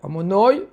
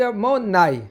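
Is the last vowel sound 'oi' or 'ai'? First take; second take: oi; ai. First: Ashkenazi accent, ending with an 'oi' sound. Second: Sephardi accent, ending with an 'ai' sound.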